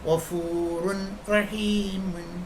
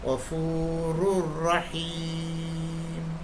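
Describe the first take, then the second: First: A clear n is heard before the r. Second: The n merges into a doubled r. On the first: The speaker calls it wrong. "നമ്മൾ എപ്പോഴും പറയുന്നൊരു വാക്കുണ്ട്" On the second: The speaker calls it right. "ശരിക്കും വായിക്കേണ്ടത്"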